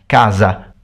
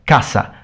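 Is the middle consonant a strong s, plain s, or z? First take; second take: z; strong s. First: The middle consonant is a voiced z sound. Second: The middle consonant is a strong, sharp s sound. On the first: This is the northern Italian and Portuguese way. "northern Italian and Portuguese" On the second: This is the Spanish way.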